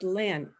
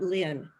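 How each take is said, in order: First: The vowel sounds like 'eh' as in 'bet'. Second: The vowel sounds like 'ih' as in 'bit'. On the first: The speaker calls it right. "It's Len" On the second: The speaker calls it wrong. "not Lynn"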